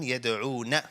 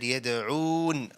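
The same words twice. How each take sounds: First: The word ends with a vowel after n. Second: The word ends on a silent final n. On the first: The reciter continues without stopping. "rather than" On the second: The reciter stops at this word. "When I stopped here, I said"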